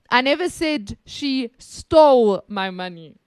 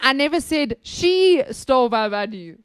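First: The stress is on "stole". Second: The stress is on "she".

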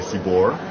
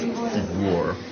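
First: The name is said simply, without a glide. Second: The name is said with a little glide. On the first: This is the simplified way to say it. "the easiest way to pronounce it is just to say" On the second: This is the proper, original way to say it. "if you want to say it properly, it's ... There's like a little glide over"

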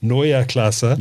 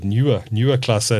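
First: The name is said with German sounds. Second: The name is said with anglicized sounds. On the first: The speaker calls it right. "It's actually" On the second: The speaker calls it wrong. "I call it"

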